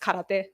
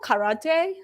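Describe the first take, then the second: First: It is said with a Japanese pronunciation. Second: It is said with an American pronunciation.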